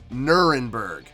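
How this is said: The name is said with an English pronunciation. This is how it is commonly known abroad. "English conventional is"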